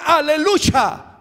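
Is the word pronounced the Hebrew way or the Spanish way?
Hebrew. The word has a Hebrew-style pronunciation. The speaker calls it right. "está hablando usted hebreo"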